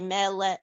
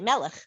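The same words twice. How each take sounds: First: The syllables are said slowly and separately. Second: The syllables are run together quickly. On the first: The speaker calls it wrong. "you don't say melech" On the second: The speaker calls it right. "you say melech. ... You're just saying it quicker"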